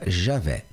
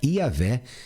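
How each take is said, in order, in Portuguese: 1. O nome começa com um som 'zh'. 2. O nome começa com um som de deslize 'ee'. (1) "na nossa pronúncia aqui portuguesa fica Javé" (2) "na língua hebraica"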